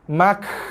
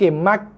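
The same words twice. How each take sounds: First: The k is released with a heavy burst of breath. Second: The k is released with no breath at all. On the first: "bersembuh-sembuh keluar nafas pun salah juga" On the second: "tak keluar nafas langsung, salah"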